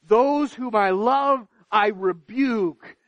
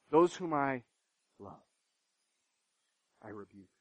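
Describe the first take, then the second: First: Forceful proclamation. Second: Much softer and lower, almost breathed out; hushed repetition. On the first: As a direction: preach it out to the whole room. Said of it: "preacher voicing God's words". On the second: Preacher repeating God's words to the congregation, hushed. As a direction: let it fall to a near hush. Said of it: "same words repeated softly". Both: Shown as a demonstration.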